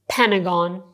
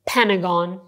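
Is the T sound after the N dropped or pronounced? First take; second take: dropped; dropped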